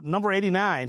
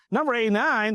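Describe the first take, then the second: First: Said in the usual way. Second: High, scornful disbelief at Number eighty-nine; incredulous repeat. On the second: Retold or imitated. Big John scoffing at the request for number eighty-nine, high incredulous. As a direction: repeat it like it's a ridiculous ask.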